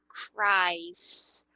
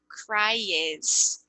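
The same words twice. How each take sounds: First: CRIES as one syllable, kraiz; slow CRIES with only an S sound at the end; correct pronunciation. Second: CRIES slowly broken into two syllables, cry-ez; wrong pronunciation. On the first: Teacher giving the pronunciation, CRIES in one syllable, no E heard. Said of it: "a pronúncia aqui é". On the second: Teacher showing the mistake, CRIES said as cry-ez. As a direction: add a sounded E to CRIES, cry-ez. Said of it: "Não é cries". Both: Shown as a demonstration.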